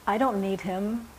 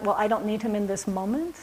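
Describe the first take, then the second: First: Said in the usual way. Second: "moment" rising into a question, a little faster; questioning rise. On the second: Shown as a demonstration. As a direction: ask it back, tipping up on "moment". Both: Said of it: "And is that".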